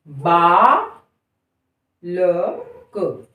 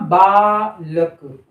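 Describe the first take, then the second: First: "बालक" stretched extremely slowly, each sound held; extra-stretched demo. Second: "बालक" said very slowly; slow demo word. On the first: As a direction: hold every sound of "बालक". ("बालक" को बहुत लंबा खींचकर बोलना) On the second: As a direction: drag "बालक" out. ("बालक" को धीरे-धीरे बोलना) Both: Shown as a demonstration. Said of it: "बोल कर देखिए".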